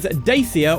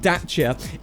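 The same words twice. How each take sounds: First: It is said with an English-style pronunciation. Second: It is said with a Romanian pronunciation. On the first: The speaker calls it wrong. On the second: The speaker calls it right.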